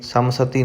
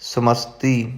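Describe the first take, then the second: First: The word ends with a 'sati' sound. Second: The word ends with an 'sti' sound. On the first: The speaker calls it wrong. "नहीं कहना" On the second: The speaker calls it right. "समस्ति निधाने"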